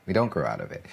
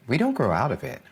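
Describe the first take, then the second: First: Said in the usual way. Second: Don't rises high; stress on don't. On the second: Real, not acted. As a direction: lean on don't. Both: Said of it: "repeats for emphasis".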